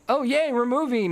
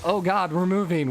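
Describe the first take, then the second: First: It is said in an excited, happy tone. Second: It is said in a dismayed, worried tone.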